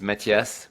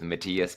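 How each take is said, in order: First: The name is said the French way. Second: The name is said the American way. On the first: "the French way is Mathias" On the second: "I Americanized it a little bit with Matthias"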